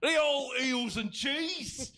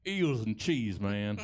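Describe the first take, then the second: First: High, slow, hammed-up British cry; mock British accent. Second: Lightly put-on Southern husband; mock Southern accent. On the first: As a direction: call it out slowly in exaggerated British. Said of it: "clearly a product of the British Isles". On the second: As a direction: say it as a Southern good ol' boy. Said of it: "Somebody's southern husband is here".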